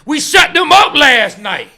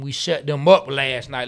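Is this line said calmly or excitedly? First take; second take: excitedly; calmly. First: It is said loudly with excited energy. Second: It is read in a plain, calm voice. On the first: The speaker calls it right. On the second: The speaker calls it wrong.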